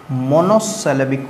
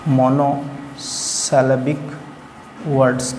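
First: Said in the usual way. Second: monosyllabic stretched out slowly, each syllable mo-no-si-le-bik apart; slow model word. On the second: Shown as a demonstration. Teacher repeats the term for students, slowly and deliberately. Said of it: "monosyllabic word कहा जाता है".

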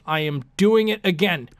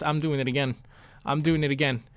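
First: Every word of "I am doing it again" firmly stressed; emphatic declaration. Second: Said in the usual way. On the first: Real, not acted. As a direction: hit AM and DOING hard, word by word. Same vow repeated emphatically.

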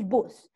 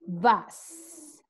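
First: "bus" said with the Spanish u, like "boos"; Spanish-style bus. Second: "bus" with a short open uh vowel, close to "bahs"; English bus. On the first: Teacher showing the class Spanish bus before English. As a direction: say "bus" the Spanish way, rounded oo vowel. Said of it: "In Spanish". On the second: Teacher contrasting Spanish and English, English bus. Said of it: "In English". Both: Shown as a demonstration.

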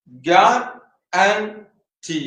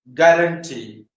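First: ഗ്യാരണ്ടി very slowly, with gaps between three syllables. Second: Said in the usual way. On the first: Shown as a demonstration. Teacher counting syllables in ഗ്യാരണ്ടി, syllable by syllable. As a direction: break ഗ്യാരണ്ടി into ga, ran, tee. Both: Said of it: "One, two, three".

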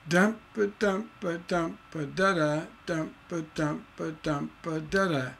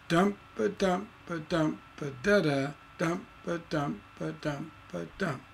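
First: Soft "DUMP, ba" beats, each line ending DA plus unstressed "da"; continuing tension. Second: Soft chant, dangling "da, da" in the first line, final stressed "dump"; resolved line endings. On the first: Teacher keeps going to show students, unresolved chant. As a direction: chant both lines to a weak, dangling final "da". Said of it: "continuing the tension". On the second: Teacher completing the dangler for students, resolved chant. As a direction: chant "ba, DUMP" beats softly and close on a falling "dump". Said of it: "We resolved that little hang".

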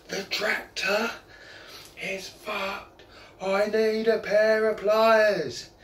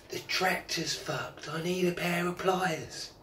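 First: Slow, high call that gets louder on pliers; bellowing from the tractor. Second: Slow, higher call to someone far off; calling up the hill. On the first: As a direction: haul it out long and loud at the end. Farmer bellowing from tractor top. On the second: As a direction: shout up to the wife without much push. Farmer calling up to wife. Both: Retold or imitated.

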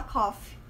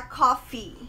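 First: "coffee" said like "cough", final vowel swallowed; mispronounced COFFEE. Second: "coffee" with a full "ee" at the end; correct COFFEE. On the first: Teacher showing a common error, "coffee" sounding like "cough". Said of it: "Muita gente fala coffee". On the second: Teacher modelling the correct word, "coffee" with clear final "ee". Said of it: "Você dá uma entonação no". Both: Shown as a demonstration.

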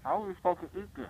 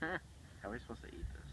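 First: Higher, louder complaining question; exasperated outburst. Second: Breathy whispered question. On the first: Loud repeat, staring at wad. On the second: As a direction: whisper it in dismay. Dismayed aside while folding paper. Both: Real, not acted.

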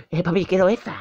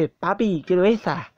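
First: Put-on high little-kid voice, begging dad; baby voice. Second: Lightly voiced toddler asking daddy; a hint of little kid pleading; baby voice. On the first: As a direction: play a small child wanting it. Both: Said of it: "Así con voz de bebé".

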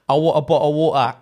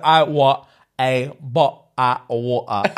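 First: Run-together mock Cockney, amused; jokey, fluent Cockney accent. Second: "bottle of water" slowly, broken into Cockney syllables; mock slow, sounded-out Cockney, t's missing in "bottle" and "water"; spelt-out Cockney. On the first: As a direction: rattle it off with Cockney glottal t's. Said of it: "like a Cockney or something accent". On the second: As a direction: read out Cockney phonetics haltingly. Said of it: "spell out what it would sound like".

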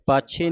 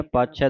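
First: ਪਾਛੇ ending in a close e; wrong final vowel. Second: ਪਾਛੈ ending in an open ai; open final vowel. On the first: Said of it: "ਪਾਛੇ ਨਹੀਂ ਕਹਿਣਾ". (ਪਾਛੇ, ਇੱਕ ਲਾਂ ਨਾਲ) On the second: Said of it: "ਦਲਾਵਾਂ ਦੇ ਨਾਲ". (ਪਾਛੈ ਦੁਲਾਵਾਂ ਨਾਲ) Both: Shown as a demonstration.

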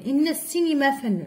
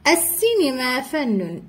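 First: Quick إن السينما run together as inna-ssinima; linking hamza. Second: Slow السينما starting on a glottal a; initial hamza pronounced. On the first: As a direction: glide from إن straight into the s of السينما. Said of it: "ما نطقناش كذلك السينما". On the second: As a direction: sound the opening a of السينما clearly. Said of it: "في أولها همزة تم النطق بها". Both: Shown as a demonstration.

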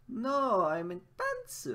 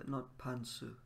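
First: Loud, high protest, with "pants" pitched up; emphatic upward correction. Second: "pantsu" dropped back down, falling; lowerish tone. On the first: Acted. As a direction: correct them loudly, lifting "pants" high. Acting out a correction with upward intonation. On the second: Shown as a demonstration. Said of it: "lowerish tone, it means underwear".

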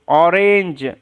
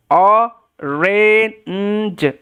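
First: Said in the usual way. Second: "অরেঞ্জ" very slowly in parts: o, re, nnn, j; sounding out. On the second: Shown as a demonstration. Teacher modelling orange for learners, sounded out slowly. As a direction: stretch and separate every sound of "অরেঞ্জ".

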